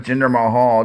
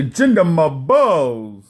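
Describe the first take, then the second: First: Said in the usual way. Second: Mock New York accent, drawn out. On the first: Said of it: "don't say". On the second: Host scolding podcaster's pronunciation, exaggerated New York accent. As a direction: drag the name out in a cheap New York accent. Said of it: "the New York accent".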